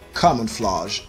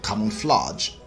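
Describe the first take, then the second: First: It is said in a British accent. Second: It is said in a Nigerian accent. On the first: The speaker calls it right. "The correct and standard British pronunciation" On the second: The speaker calls it wrong. "the Nigerian pronunciation"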